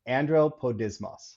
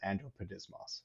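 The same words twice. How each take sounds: First: It is said slowly. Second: It is said at normal speed.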